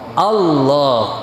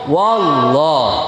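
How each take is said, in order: First: The word begins with a glottal stop. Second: The word begins with a w sound. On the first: The speaker calls it right. "Yang benar adalah hamzah" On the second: The speaker calls it wrong. "Kalau waw"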